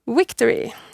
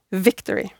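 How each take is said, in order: First: The word begins with a w sound. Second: The word begins with a v sound. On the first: The speaker calls it wrong. "vi uttaler ord som på engelsk har enkelt-v-lyd med en dobbelt-v-lyd" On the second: The speaker calls it right. "i stedet for victory"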